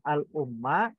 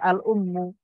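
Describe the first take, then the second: First: The word ends with an a vowel. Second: The word ends with an u vowel. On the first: The speaker calls it wrong. "bukan al-umma" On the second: The speaker calls it right. "Makanya dibaca al-ummu"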